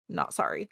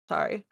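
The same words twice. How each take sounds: First: Quiet, deadpan retraction; not sorry. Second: Mock apology. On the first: Pretend. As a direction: take the apology back flatly.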